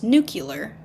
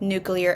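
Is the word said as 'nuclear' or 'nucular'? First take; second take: nucular; nuclear. First: The ending is said like 'cue-lar'. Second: The ending is said like 'clear'. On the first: The speaker calls it wrong. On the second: The speaker calls it right.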